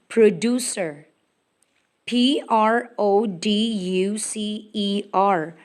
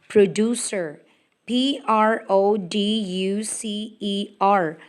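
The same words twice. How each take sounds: No difference in how they are said.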